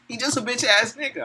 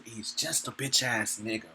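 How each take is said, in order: First: Much higher mocking insult; high, jeering put-down; mocking repeat. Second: Low, soft, slow put-down; quiet scornful aside; muttered insult. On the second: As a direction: say it under your breath. Preacher insults the enemy. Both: Real, not acted.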